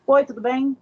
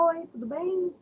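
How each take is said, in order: First: Louder, matter-of-fact hello; brisk greeting. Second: Soft, high, lilting hello; friendly greeting. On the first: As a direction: greet in a firm, ordinary voice. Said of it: "É uma coisa você falar assim". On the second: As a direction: greet sweetly with a raised, gentle tone. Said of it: "porém com entonações diferentes". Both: Shown as a demonstration.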